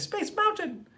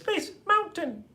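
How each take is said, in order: First: The syllables flow together in ordinary speech. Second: Each syllable is pronounced separately and crisply. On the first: "Instead of saying" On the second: "it's the enunciation of each of the syllables"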